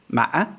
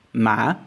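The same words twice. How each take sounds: First: "ma" broken by a catch, then rising sharply; hiccup tone. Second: "ma" dipping, then rising smoothly; questioning tone. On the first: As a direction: hiccup inside "ma" and jump up. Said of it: "these two words". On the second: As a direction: ask "ma" without a break in the voice. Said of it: "or the really questioning tone". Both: Shown as a demonstration.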